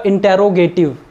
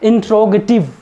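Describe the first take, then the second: First: इंटेरोगेटिव as in-te-ro-ge-tiv, full e after t; इंटेरोगेटिव spelled out in five syllables; wrong pronunciation. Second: इंट्रोगेटिव as in-tro-ge-tiv, tr cluster; इंट्रोगेटिव in four syllables, in-tro-ge-tiv; correct pronunciation. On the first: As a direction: say इंटेरोगेटिव with every vowel, in-te-ro-ge-tiv. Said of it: "ये इंटेरोगेटिव नहीं होता". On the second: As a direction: say इंट्रोगेटिव with the t and r run together. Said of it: "ये होता है इंट्रोगेटिव". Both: Shown as a demonstration.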